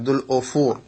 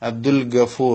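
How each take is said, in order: First: The second word starts with an o vowel. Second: The second word starts with a throaty consonant. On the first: "ചില ആളുകൾ ഓ എന്നും പറയും" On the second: "ഗ എന്നാണ് മലയാളത്തിൽ നമ്മൾ എഴുതുക"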